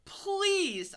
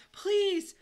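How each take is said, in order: First: High, loud begging yelp; wrongly said plea. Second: High, loud drawn plea; begging. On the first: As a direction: plead with a sudden high, loud cry. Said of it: "I said it wrong". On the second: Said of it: "I begged". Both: A narrator's reading.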